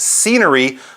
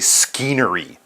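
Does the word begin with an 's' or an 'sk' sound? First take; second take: s; sk. First: The word begins with a plain s sound. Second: The word begins with an s-k sound. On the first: The speaker calls it right. "That S C is just sort of an S sound" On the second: The speaker calls it wrong. "you don't say skeenery"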